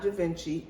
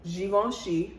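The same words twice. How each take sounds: First: The name is pronounced in an Italian-sounding way. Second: The name is pronounced in a French way. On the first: The speaker calls it wrong. "it's not Givenchy" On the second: The speaker calls it right. "it's Givenchy, a French designer"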